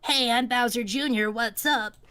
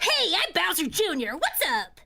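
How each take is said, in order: First: It is said flatly with little energy. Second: It is said with lively character energy.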